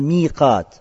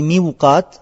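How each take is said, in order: First: No w sound follows the first vowel. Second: A w sound follows the first vowel. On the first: The speaker calls it right. "а «миқат»" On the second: The speaker calls it wrong. "Но говорится не «миуқат»"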